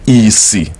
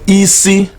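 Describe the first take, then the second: First: The word is said on a low tone. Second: The word is said on a high tone. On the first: It means blindness. "Isi means blindness" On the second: It means head. "which is the high tone"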